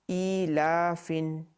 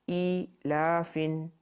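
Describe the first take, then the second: Both takes have the same delivery.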